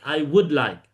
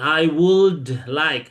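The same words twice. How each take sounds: First: The word would is said without an L sound. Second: The word would is said with an L sound. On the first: The speaker calls it right. "Nggak pakai L" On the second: The speaker calls it wrong.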